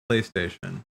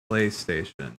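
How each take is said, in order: Both takes have the same delivery.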